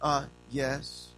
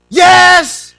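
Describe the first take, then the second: First: Softer, lower, mild reply; polite answer. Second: Very loud, high, annoyed yell; irritated shout. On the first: Shown as a demonstration. Child answering a parent's question, mild polite tone. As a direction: answer mildly, with a little hesitation. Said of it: "What happened to". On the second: Acted. Child disturbed by a parent's question, irritated shout. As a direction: shout it like you can't be bothered. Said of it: "I don't wanna be bothered".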